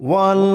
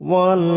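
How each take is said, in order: The two takes are said the same way.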